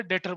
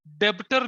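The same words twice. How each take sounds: First: डेटर, the B dropped completely; silent B. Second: डेब्टर with the normally silent B pronounced; wrong pronunciation, B sounded. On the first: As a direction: say डेटर with no B sound before the T. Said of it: "जिसमें बी silent होता है". (डेटर में B silent रखकर) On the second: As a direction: say डेब्टर with an audible B before the T. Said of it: "डेब्टर नहीं बोलते". (डेब्टर में B की आवाज़ साफ़ बोलते हुए) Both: Shown as a demonstration.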